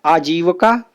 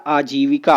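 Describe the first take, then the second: First: आजीविका said as "aajeevaka" with a short middle vowel; wrong spelling read out. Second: आजीविका said clearly as "aajeevika" with a full i; correct spelling read out. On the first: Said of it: "आजीविका नहीं होता है". (आजीविका को ग़लत रूप "आजीवका" की तरह बोलें) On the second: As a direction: say आजीविका carefully, "aa-jee-vi-ka". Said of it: "शुद्ध होता है आजीविका". (आजीविका को सही रूप "आजी-वि-का" की तरह साफ़ बोलें) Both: Shown as a demonstration.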